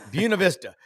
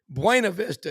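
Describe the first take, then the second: First: The name is said the local Southern way. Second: The name is said in a non-local way. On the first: The pronunciation the locals use. The speaker calls it right. "you are in in the South. It's Buena Vista" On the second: An outsider's pronunciation of the town. The speaker calls it wrong. "I called it Buena Vista"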